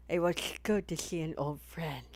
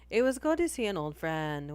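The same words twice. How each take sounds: First: Menacing horror reading voice; murder face voice. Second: Said in the usual way. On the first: Shown as a demonstration. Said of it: "Read like murder face from Deathlock". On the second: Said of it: "it's just gonna sound like this".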